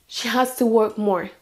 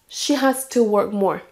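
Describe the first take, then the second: The two takes are said the same way.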